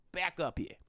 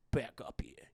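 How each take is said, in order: First: Said in the usual way. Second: Breathy whispered alarm. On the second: Retold or imitated. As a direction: drop to a startled whisper. Repeated line, hushed.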